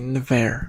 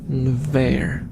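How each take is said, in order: First: The name is said as one syllable. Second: The name is said as two syllables. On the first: "like a single syllable version" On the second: "Like you try to pronounce the N right next to the V"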